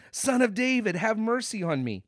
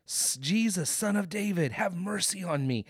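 First: High, raised cry for mercy; louder imitated shouting. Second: Imitated hollering. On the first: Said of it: "He shouts louder". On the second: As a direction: call out high, holding back the volume. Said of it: "he hollers out".

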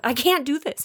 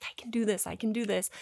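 First: Higher-pitched mock panic; retold loss of nerve, pitched up; backing out in panic. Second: Quiet self pep talk, under the breath; softly talking yourself into it. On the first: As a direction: chicken out, voice jumping up. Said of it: "like, run away". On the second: Retold or imitated. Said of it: "talking myself up into this".

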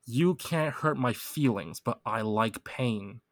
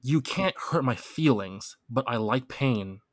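First: Very slow, spaced-out repeat; slow lyric read. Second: Slow, deliberate lyric reading. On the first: Repeating the lyric for a stuck friend, very slow. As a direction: drag each word out for them. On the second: Quizzing a friend on a rap lyric, read slow and deliberate. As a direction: read the quiz lyric out slowly. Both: Shown as a demonstration. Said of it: "the lyrics".

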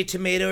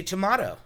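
First: Tomato as "tuh-MAY-toe"; long A. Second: Tomato as "tuh-MAH-toe"; broad A. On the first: Asking co-host which way, tomato with long A. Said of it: "Do you say tomato or do you". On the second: Asking co-host which way, tomato with broad A. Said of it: "or do you say tomato". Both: Shown as a demonstration.

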